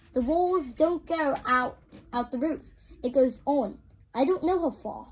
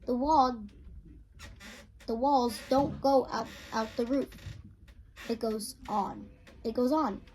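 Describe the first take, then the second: First: Louder, higher British accent read; Polly's line redone in a British accent. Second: Said in the usual way. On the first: Shown as a demonstration. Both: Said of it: "my British accent".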